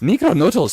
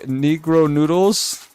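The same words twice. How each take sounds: First: It is said in a put-on foreign accent. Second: It is said in the speaker's ordinary voice.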